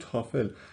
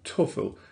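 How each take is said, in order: First: The first vowel is an open 'a' sound. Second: The first vowel is a rounded 'o' sound. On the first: This is how Persian speakers say it. "ما تو فارسی میگیم تافل" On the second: This is the original English pronunciation. "پرونانسیشن اصلی تو انگلیسی توفل هستش، او تلفظ میشه"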